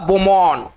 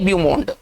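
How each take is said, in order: First: It starts with 'bo' and ends without a d. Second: It starts with 'byoo' and ends with a d. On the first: The speaker calls it right. "French अगर तरीके से अगर सही तरीके से पढ़ा जाए" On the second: The speaker calls it wrong. "ऐसे तो पढ़ेंगे ब्यूमोंड"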